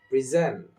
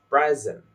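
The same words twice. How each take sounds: First: The stress is on the second syllable. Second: The stress is on the first syllable. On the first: It is used as a verb. "in the verb version of it" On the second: It is used as a noun. "noun version"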